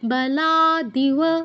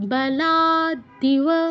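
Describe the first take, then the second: The two takes are said the same way.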